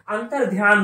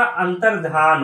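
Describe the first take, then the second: First: अंतर ध्यान as two words with "dhyaan"; wrong pronunciation. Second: अंतर्धान as one word, "antardhaan"; correct pronunciation. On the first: Teacher rejecting the faulty word, "antar dhyaan". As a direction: put a y-glide in ध्यान after अंतर. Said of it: "नहीं होता". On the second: Teacher giving students the right word, "dhaan" without y. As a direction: say अंतर्धान with no y-glide. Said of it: "होता है". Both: Shown as a demonstration.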